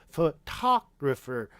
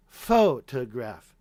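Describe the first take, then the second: First: "photographer" slowly as fuh-TOG-ruh-fer; second-syllable stress. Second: "photograph" drawn out slowly, stressed on FO; first-syllable stress. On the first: Streamer demonstrating shifted stress, "photographer" slowly as fuh-TOG-ruh-fer. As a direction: punch TOG in "photographer", slow. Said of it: "now that shifts over to the next one". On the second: Streamer demonstrating stress rule, "photograph" slowly as FO-tuh-graph. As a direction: hit FO in "photograph", then let the rest drop. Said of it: "And so it's faux". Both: Shown as a demonstration.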